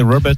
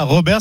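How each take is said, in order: First: Robert is said with an English pronunciation. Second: Robert is said with a French pronunciation. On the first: The speaker calls it right. "c'est Robert" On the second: The speaker calls it wrong. "c'est pas Robert"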